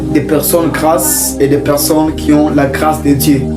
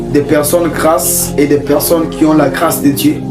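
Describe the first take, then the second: No difference in how they are said.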